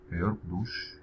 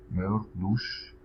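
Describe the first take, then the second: First: Said in the usual way. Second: Careful slow demo of ما يرقدوش; ما يرقدوش drawn out for learners; slow model. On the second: Shown as a demonstration. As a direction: say ما يرقدوش slowly and clearly. Teacher models example slowly.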